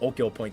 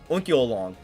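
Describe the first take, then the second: First: The name ends with a 'point' sound. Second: The name ends with a 'long' sound. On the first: The speaker calls it wrong. "that's not how you say it" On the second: The speaker calls it right. "It's like Onkyo Long, or something like that"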